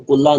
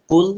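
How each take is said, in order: First: قلہ with an added short a vowel at the end; wrong pronunciation. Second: قل ended clean on a silent l, no vowel after; correct pronunciation. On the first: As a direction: say قلہ as qul-la, the mistaken extra vowel. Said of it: "بہت سارے لوگ جلدی جلدی میں قلہ پڑھتے ہیں". (قلہ کو غلط طور پر آخر میں زبر کے ساتھ) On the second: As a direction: stop قل short on the l. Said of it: "تو قلہ نہیں ہے". (قل کو ساکن لام پر صاف ختم کریں) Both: Shown as a demonstration.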